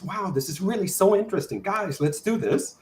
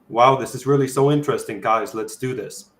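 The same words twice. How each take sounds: First: It is said in a high voice. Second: It is said in a deep voice.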